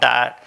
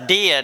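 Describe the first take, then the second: First: It is said like the English word diet. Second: It is said the German way, unlike English diet. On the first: The speaker calls it wrong. "surely that's not diet" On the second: The speaker calls it right. "that's diet is how they all pronounce that"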